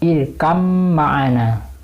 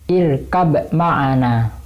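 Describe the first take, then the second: First: The b is merged fully into the m. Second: The b is clearly pronounced before the m. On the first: The speaker calls it right. "Abbanya tidak dibaca, langsung ke mim" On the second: The speaker calls it wrong. "seringkali mereka mentahqiq huruf ba ketika bertemu dengan mim"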